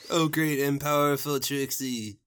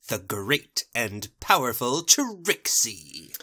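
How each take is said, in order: First: Lightly voiced worshipful sidekick; fawning admirer. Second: Slow, drawn-out showman proclamation; grandiose boast. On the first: Thirsty boys adoring their magician, lightly fawning. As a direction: fawn over the title, falling at the end. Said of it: "Thirsty boys are here again". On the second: Acted. Magician announcing herself, slow and grandiose. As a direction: proclaim the title, stretching every word.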